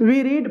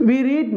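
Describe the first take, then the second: Both takes have the same delivery.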